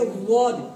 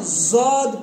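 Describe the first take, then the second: First: It starts with a heavy emphatic d sound. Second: It starts with a z sound. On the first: The speaker calls it right. "बल्कि वोद" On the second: The speaker calls it wrong. "ना जौद पढ़ना है"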